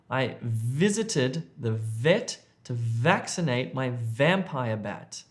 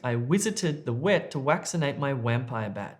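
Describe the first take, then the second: First: The v sounds are said as v. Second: The v sounds are said as w. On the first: The speaker calls it right. "let me read the correct one" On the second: The speaker calls it wrong. "this is incorrect"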